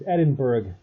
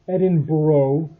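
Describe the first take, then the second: First: The ending is said with a hard g sound. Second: The ending is said without a hard g sound. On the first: This follows the spelling. The speaker calls it right. "Don't put a G there if you're not going to pronounce it" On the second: This is how locals say it. The speaker calls it wrong. "they pronounce over there Edinburgh"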